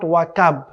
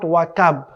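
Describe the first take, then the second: First: The k sound is light, made further forward. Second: The k sound is light, made further forward.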